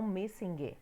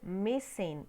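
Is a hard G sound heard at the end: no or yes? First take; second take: yes; no. First: The word ends with an audible hard g sound. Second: The word ends without any hard g sound. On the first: The speaker calls it wrong. "e não" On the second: The speaker calls it right. "esquece que tem esse G aí"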